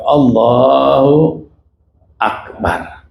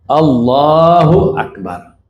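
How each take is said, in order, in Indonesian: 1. Ada jeda panjang yang memisahkan kedua kata. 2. Kedua kata disambung tanpa jeda. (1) "ada senggang waktu gitu" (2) "Itu harus nyambung"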